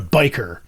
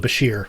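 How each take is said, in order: First: It sounds like 'biker', ending in a k-sound. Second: It sounds like 'ba-SHEER', ending in a sh-sound. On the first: The speaker calls it wrong. "Biker sounds stupid" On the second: The speaker calls it right. "The two I remember are Bashir and Biker"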